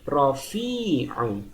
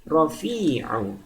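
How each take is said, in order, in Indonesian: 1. Vokal tengahnya dibaca panjang. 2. Vokal tengahnya dibaca panjang.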